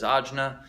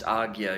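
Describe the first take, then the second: First: The middle sounds like 'j-n', as in aj-na. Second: The middle sounds like 'g-y', as in ag-ya. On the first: This is a pronunciation others use, perhaps for Western listeners. "Deepak Chopra says Ajna" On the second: This is the pronunciation the speaker understands as correct. "pronounced Agya"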